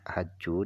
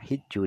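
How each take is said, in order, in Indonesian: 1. Vokal pertama adalah bunyi 'a' terbuka. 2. Vokal pertama adalah bunyi 'i' tertutup. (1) "haju dengan dibaca fathah" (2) "hiju dengan dibaca kasroh"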